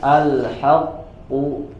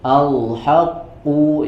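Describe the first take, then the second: First: The h sound is already made thick. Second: The thickness starts from the l sound. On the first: "jangan sampai kita membacanya" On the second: "apalagi kalau sampai dibaca tebal dari uh, lamnya"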